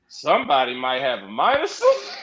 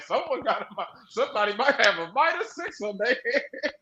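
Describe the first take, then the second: First: Lower, chuckling remark; half-laugh the prediction; laughing aside. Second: Laughing remark, slightly softer; laughing aside. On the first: Fan recalling a laughing prediction about a wrestler's fate, chuckling. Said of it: "I said". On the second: Fan repeating the joke prediction about a wrestler, laughing. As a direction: chuckle it out again. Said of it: "I was like". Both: Retold or imitated.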